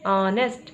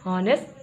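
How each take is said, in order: First: The word begins with a vowel, no h. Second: The word begins with an audible h sound. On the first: The speaker calls it right. "पढ़ते हैं ऑनेस्ट" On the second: The speaker calls it wrong. "हम इसे हॉनेस्ट नहीं पढ़ते हैं"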